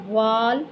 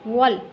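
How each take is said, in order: First: वाल with a long drawn aa; wrong long vowel. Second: वल with short wa closed onto lam; correct short vowel. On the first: Teacher warns against a misreading, long vowel. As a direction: stretch the vowel in वाल to waal. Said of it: "नहीं पढ़ेंगे". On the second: Teacher gives the right reading, short joined syllable. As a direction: join वल directly, no long aa. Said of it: "लाम के साथ मिलाएंगे direct". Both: Shown as a demonstration.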